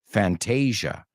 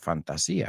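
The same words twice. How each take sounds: First: The word is said with English sounds, rhyming with Asia. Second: The word is said with Spanish-style sounds. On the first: This is how English speakers say the title. "in English, we pronounce it Fantasia" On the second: This is how the listeners say the title. "I think you call it Fantasia"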